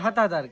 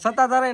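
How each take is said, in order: First: The name begins with an h sound. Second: The name begins with an s sound. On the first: "આપણે હતાધાર કહીએ" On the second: "સત્તાધાર નો"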